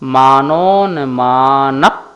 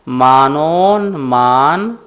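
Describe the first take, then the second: First: The word ends with a slight p sound. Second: The word ends without a p sound. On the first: The speaker calls it right. "यहाँ भी पाका उच्चारण होगा" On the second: The speaker calls it wrong. "ये उच्चारण है।"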